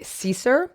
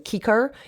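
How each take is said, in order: First: The C sounds are soft, like S. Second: The C sounds are hard, like K. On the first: The speaker calls it wrong. "I'm just going to just say Caesar, um, but that's not how it would be pronounced" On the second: The speaker calls it right. "The C's in Latin were hard, so Cicer is how it would have been pronounced"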